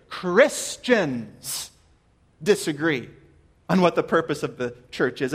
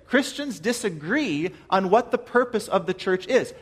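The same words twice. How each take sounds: First: Christians set apart with a pause before disagree; stress on Christians. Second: Said in the usual way. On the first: Shown as a demonstration. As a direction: lean on Christians, then pause. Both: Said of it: "I emphasize the word Christians".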